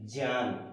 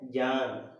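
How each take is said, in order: First: The word begins with a j sound. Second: The word does not begin with a j sound. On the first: The speaker calls it right. "वास्तविक रूप में इसका उच्चारण अगर हम करें तो वो करेंगे जें" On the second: The speaker calls it wrong. "हम करते आते हैं"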